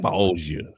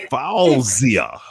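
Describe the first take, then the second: First: Fauzia said lower and softer, reshaped as "Falzia"; reworked pronunciation. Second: Said in the usual way. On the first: Shown as a demonstration. Host repronouncing a viewer's name, low and soft. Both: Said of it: "I'm repronouncing your name".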